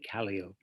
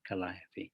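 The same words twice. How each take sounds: First: It is the pronunciation used by circus people. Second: It is the pronunciation used by outsiders. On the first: The speaker belongs to the circus world. The speaker calls it right. "circus people do not call them calliopes, they call them calliopes... Say calliope" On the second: The speaker is not a circus person. The speaker calls it wrong. "not calliope"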